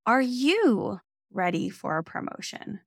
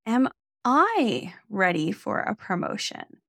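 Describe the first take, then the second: First: Are you ready for a promotion, with you leaned on; stress on you. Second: Am I ready for a promotion, with I leaned on; slow, putting the weight on "I"; stress on I. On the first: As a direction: hit the word "you" a little harder. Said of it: "asking whether or not you". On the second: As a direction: ask it of yourself, landing on "I". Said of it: "putting the emphasis on the I". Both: Shown as a demonstration.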